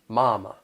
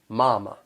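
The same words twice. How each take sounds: First: The first syllable is drawn out and strong. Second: The first syllable is drawn out and strong.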